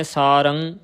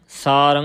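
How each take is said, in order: First: ਸਾਰੰ closed with a g-like "ng"; ਸਾਰੰ with an added velar ending; mistaken hard ending. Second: ਸਾਰੰ ending in a nasal "ran", no g; ਸਾਰੰ with a pure nasal ending; nasal tippi. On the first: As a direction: say ਸਾਰੰ as "saarang", the ending sounded. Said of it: "ਕਿਸੇ ਨੇ ਅੱਗੇ ਗੱਗੇ ਨਹੀਂ ਬੁਲਾਉਣੇ". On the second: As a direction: send the end of ਸਾਰੰ into the nose. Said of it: "ਨੱਕ ਦੇ ਵਿੱਚ ਰਾਰੇ ਟਿੱਪੀ ਰੰ". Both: Shown as a demonstration.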